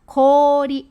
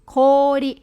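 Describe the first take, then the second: No difference in how they are said.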